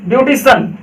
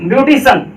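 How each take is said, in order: The two takes are said the same way.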